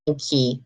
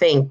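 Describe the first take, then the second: First: An extra vowel is added after the final K. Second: The word ends sharply on the K sound. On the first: The speaker calls it wrong. "You're not going to say thinky" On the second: The speaker calls it right. "There's no vowel in the end"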